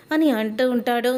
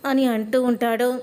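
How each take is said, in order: Both takes have the same delivery.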